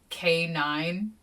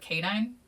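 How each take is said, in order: First: It is said as a separate letter and number. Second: It is said as a single joined word. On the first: The speaker calls it wrong. "the letter K and the number nine" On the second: The speaker calls it right. "like canine like the dog meaning"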